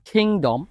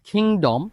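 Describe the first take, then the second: No difference in how they are said.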